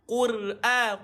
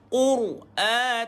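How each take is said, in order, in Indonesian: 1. Bunyi r itu tipis dan ringan. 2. Bunyi r itu tebal dan berat. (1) "takkan tuan-tuan nak baca Qur'a" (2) "tebal ke bunyi ra juga"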